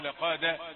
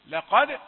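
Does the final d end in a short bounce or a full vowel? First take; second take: vowel; bounce. First: The final d is followed by a full vowel. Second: The final d ends with a short echoing bounce. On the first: The speaker calls it wrong. "ما تديش الدال فتحة" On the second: The speaker calls it right. "الدال قلقلة"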